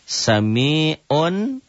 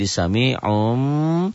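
First: The word ends in an n sound. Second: The word ends in a nasal m sound.

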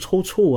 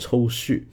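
First: The second syllable begins with a ch sound. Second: The second syllable begins with an x sound. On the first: The speaker calls it right. "对啊，就是抽搐啊" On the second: The speaker calls it wrong. "我把这个抽搐读成了抽蓄"

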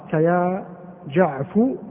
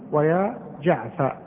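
First: The shortened name ends in a u vowel. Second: The shortened name ends in an a vowel. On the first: "ضما" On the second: "وفتحا"

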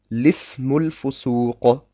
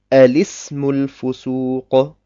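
First: It starts directly with the L sound. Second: It starts with an A sound before L. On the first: The connecting hamza is treated as unnecessary. "ich betrachte diese Hamzatu Waslin als unnötig und lese einfach" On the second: The connecting hamza is pronounced anyway. "spreche die Hamzatu Waslin trotzdem aus"

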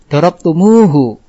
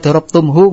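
First: A long u vowel joins the m and h. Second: The m and h meet with no vowel between. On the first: The reading flows without a break. The speaker calls it right. "puas karena nggak terputus dalam bacaan, nggak terhenti oleh sukun" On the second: The reading is cut short by the vowelless sound. The speaker calls it wrong. "nggak puas"

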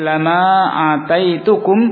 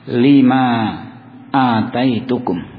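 First: The first word is said with an 'a' vowel. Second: The first word is said with an 'i' vowel. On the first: The word is an emphatic particle strengthening the oath. "Dibaca dengan memfathah lam bi fathil lam" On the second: The word is a preposition tied to the verb. "lam di sini dibaca dengan kasrah"

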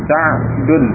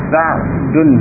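The two takes are said the same way.

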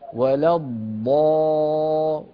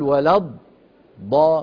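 First: The sound is held without any break. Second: The sound is cut off with a gap. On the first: The speaker calls it right. "ولا تقطع الصوت" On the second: The speaker calls it wrong. "لا تقول ولا الضا، ما في فراغ"

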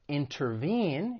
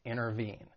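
First: The T after the N is clearly pronounced. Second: The T after the N is dropped. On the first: "instead of intervene" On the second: "when the T follows an N sound ... it may elide and people may drop it"

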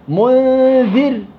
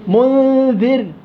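Both takes have the same delivery.

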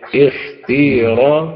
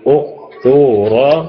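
First: The long vowel is a plain ee sound. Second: The long vowel is a rounded oo sound. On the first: "وإن كان الياء هتكسر الهمزة فتقول اختيرا" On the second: "فإذا كان واويا تقول اختورا"

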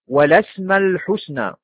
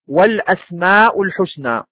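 First: The hamza sounds are shifted and dropped. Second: The hamza sounds are fully pronounced. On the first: The word is shortened to fit the poetic meter. "بنقل الهمزة في الأسماء ... وبحذف الهمزة الأخيرة للوزن" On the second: This is the original full form of the word. "أصل ذلك"

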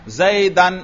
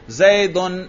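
First: The word ends in -an. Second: The word ends in -un. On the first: The word is in the accusative case. "میں نے کیا پڑھا؟ نصب" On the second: The word is in the nominative case. "میں نے کیا پڑھا؟ رفع"

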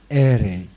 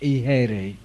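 First: The h sound is only a faint breath. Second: The h sound is pronounced fully as a syllable. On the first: This is the original Sanskrit pronunciation. The speaker calls it right. "nhưng mà đúng đó là e rị. Cái âm hờ đó nó chỉ là một cái âm hơi thôi" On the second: This is how Chinese transcription renders it. The speaker calls it wrong. "người ta đọc thành y hê rị"

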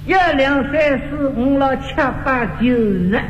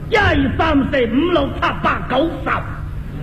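First: It is said lightly with the teeth kept closed. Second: It is said with great effort and force. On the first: "上海人轻巧……你看我把牙都闭上啊" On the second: "广东人费劲……先运气"

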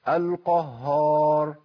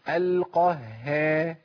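First: The h sound is heavy, with lips held rounded. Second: The h sound is light, said with a slight smile. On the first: The speaker calls it wrong. "بيثبت هيئه واحده وهي التفخيم" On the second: The speaker calls it right. "ابتسم يا اخي"

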